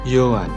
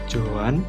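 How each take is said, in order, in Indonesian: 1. Nama itu diawali dengan bunyi Y. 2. Nama itu diawali dengan bunyi J. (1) "tapi Johan" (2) "mereka bilangnya bukan Johan"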